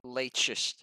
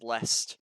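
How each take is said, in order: First: The name is sounded out following its letters. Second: The name is shortened, skipping most letters. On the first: The speaker calls it wrong. "instead of leitchist" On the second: The speaker calls it right. "all those letters are just pronounced as lest"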